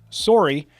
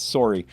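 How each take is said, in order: First: "sorry" pronounced SORE-ee, as if spelt sorrey; Canadian sorry. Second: "sorry" as SORE-ee, with more weight on the S; emphasis on S. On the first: Showing viewers how Canadians say "sorry", SORE-ee. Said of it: "how they say it is if you spell it". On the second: Refining the Canadian demo, "sorry" with a stressed S. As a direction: lean on the first sound of "sorry", lower. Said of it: "a little more emphasis on the S". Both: Shown as a demonstration.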